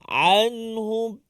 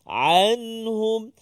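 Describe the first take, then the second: The two takes are said the same way.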